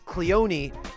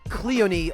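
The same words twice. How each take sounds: First: The stress is on the second syllable. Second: The stress is on the first syllable. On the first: "Cleone on the second syllable" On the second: "Cleone on the first syllable"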